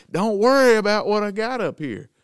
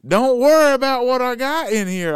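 First: Mock Grizzly. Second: Loud, much higher, mocking echo; mimicked trooper. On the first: Voicing Grizzly's reply. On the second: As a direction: bellow it like a bossy cop.

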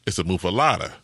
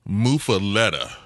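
First: Muffalata with an "ah" in LATA; local pronunciation. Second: Muffaletta with an "eh" in LETTA, as spelled; spelling pronunciation. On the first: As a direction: say muffalata with LAH, not LET. Local corrects the out-of-towner's pronunciation. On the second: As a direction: say muffaletta with LET as in "let". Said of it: "it's spelled like". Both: Shown as a demonstration.

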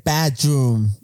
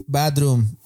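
First: "bedroom" very slow, each syllable drawn out; over-enunciate "bedroom" for slow pupils; mock correct pronunciation. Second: Said in the usual way. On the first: Girl teaches the children, mock-teacherly "bedroom". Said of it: "se dice bedroom". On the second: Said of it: "no se dice".

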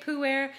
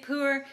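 First: Pu'er said as "poo-air"; Pu'er in two syllables. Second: Pu'er said as "poo-er"; Pu'er with r-coloured ending. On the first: Showing listeners one way people say the tea's name, Pu'er as "poo-air". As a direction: end Pu'er on an open "air" sound. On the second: Showing listeners another way people say the tea's name, Pu'er as "poo-er". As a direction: end Pu'er on "er", no "air". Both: Shown as a demonstration. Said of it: "You'll hear it pronounced different ways".

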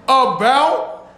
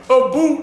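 First: "about" said normally with the usual ow sound; the regular "about" after "a boot"; plain "about". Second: "a boot" said like "a boat" with a long oo, Canadian style; mock Canadian "a boot" for about. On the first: Retold or imitated. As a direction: correct the word to a normal "about", slow. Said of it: "What do you keep saying a boot". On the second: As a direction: say "a boot" the South Park Canadian way, stretched slow. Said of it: "Nobody kept saying a boot".

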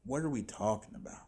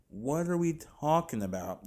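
First: Said in the usual way. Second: A touch higher, stress on "are"; mild incredulous repeat. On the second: Real, not acted. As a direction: push the disbelief a little further.

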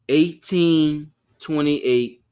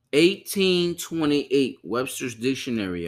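First: "Eighteen twenty-eight" drawn out very slowly and louder; stress on the year. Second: Said in the usual way. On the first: Shown as a demonstration. Host stressing the dictionary's year to his viewers, slow and loud.

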